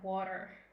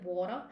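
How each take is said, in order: First: It is said in an American accent. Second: It is said in an Australian accent. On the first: "Americans is like" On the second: "like in the Australia"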